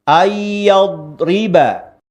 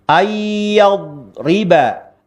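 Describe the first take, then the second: Both takes have the same delivery.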